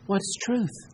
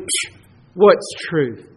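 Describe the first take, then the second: First: It is said sincerely, as a genuine question. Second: It is said scornfully, with a dismissive scoff.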